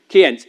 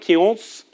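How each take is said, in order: First: The name is said with a plain pronunciation. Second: The name is said with a French-style pronunciation. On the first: The speaker calls it right. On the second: The speaker calls it wrong.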